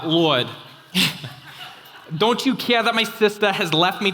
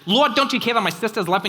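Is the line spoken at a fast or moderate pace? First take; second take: moderate; fast. First: The line is spoken at a moderate pace. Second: The line is spoken very quickly.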